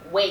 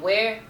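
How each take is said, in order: First: The r is dropped, so it sounds like 'way'. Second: The word keeps its final r sound.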